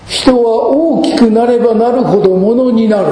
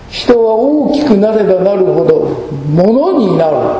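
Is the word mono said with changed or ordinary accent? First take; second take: ordinary; changed. First: The word mono has its ordinary accent. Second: The word mono has a changed, marked accent. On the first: A person becomes someone of real worth. "物になるってのはいい言い方ですが" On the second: A person stops being human and becomes a mere thing. "ちょっとアクセントを変えると意味が違ってくる"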